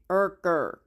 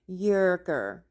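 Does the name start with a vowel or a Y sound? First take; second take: vowel; Y sound. First: The name starts with a plain vowel sound. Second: The name starts with a Y sound. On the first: The speaker calls it right. "pronouncing it Erker" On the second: The speaker calls it wrong. "That is not how you say it"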